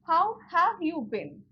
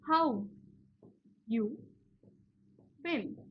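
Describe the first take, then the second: First: The word 'have' is fully pronounced. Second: The word 'have' is dropped entirely.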